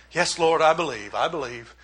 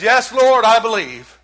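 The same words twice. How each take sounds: First: Fading from low and soft to almost nothing; dismissive shutdown. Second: Said in the usual way. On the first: Retold or imitated. Martha shutting Jesus down, fading dismissively to a murmur. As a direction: brush him off, letting each repeat die away. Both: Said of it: "more of a shutdown".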